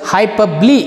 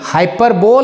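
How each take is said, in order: First: The word ends in four syllables with 'lee'. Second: The word ends in three syllables with 'bowl'. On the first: The speaker calls it right. "ಹೈಪಬ್ಲಿ ಅಂತ ನಾವು ಇದನ್ನು ಓದಬೇಕು" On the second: The speaker calls it wrong. "ಹೈಪರ್ಬೋಲ್ ಅಲ್ಲ pronounce"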